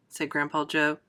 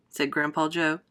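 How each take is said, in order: Both takes have the same delivery.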